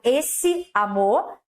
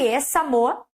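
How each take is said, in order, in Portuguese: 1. As duas vogais se pronunciam separadas. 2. As duas vogais se fundem numa só. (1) "por mais que eu tenha falado esse amor" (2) "Esse amor é tudo junto"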